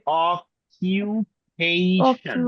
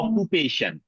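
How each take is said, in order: First: Standard English, the middle syllable sounds like 'kyoo'. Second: Bengali-accented, the middle syllable sounds like 'koo'.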